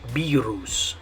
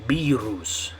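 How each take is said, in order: First: The word is pronounced with Spanish sounds. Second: The word is pronounced with Spanish sounds.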